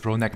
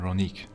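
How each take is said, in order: First: The name ends with an 'eck' sound. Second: The name ends with an 'eek' sound. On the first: The speaker calls it right. "it's Ronek" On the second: The speaker calls it wrong. "Sorry for the wrong pronunciation"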